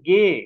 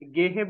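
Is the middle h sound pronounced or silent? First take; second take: silent; pronounced. First: The middle h sound is silent. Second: The middle h sound is pronounced. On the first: The speaker calls it right. "It's silent, হাটা এখানে silent." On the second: The speaker calls it wrong. "গেহে বলবেন না"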